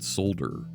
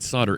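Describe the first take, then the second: First: The L sound is pronounced. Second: The L sound is silent. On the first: "where you pronounce the L" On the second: "S O D D E R"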